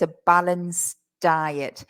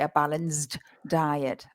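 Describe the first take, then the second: First: The D of balanced is swallowed, barely heard. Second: The D of balanced is clearly pronounced. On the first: The speaker calls it right. "in the pronunciation, it's not easy to hear that D" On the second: The speaker calls it wrong. "We don't want to say a balanced diet"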